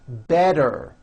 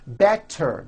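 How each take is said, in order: First: The middle consonant is a soft D sound. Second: The middle consonant is a crisp T sound.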